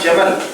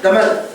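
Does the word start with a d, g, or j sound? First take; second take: j; d. First: The word begins with a j sound. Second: The word begins with a d sound. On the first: The speaker calls it right. "உதாரணமா ஜமல்" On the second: The speaker calls it wrong. "இன்னும் சில அரபிகள் தமல்"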